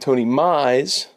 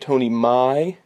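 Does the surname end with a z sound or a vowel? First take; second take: z sound; vowel. First: The surname ends with a z sound. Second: The surname ends with a vowel sound. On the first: The speaker calls it wrong. "I kept saying Tony Mize" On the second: The speaker calls it right. "his name is actually Tony Mai"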